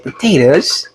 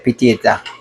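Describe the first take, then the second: First: It is said with an American accent. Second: It is said with a Jamaican accent.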